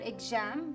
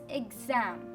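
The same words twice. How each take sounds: First: The middle consonant is a voiceless s sound. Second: The middle consonant is a voiced z sound. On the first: The speaker calls it wrong. "it's not exam or exam. Your mother tongue interference interferes with it" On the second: The speaker calls it right. "So it is exam"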